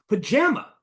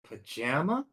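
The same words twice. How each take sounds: First: It sounds lively and excited. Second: It sounds hesitant and unsure. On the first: "Now I'm gonna say it excited" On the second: "Now I'm gonna say it unsure"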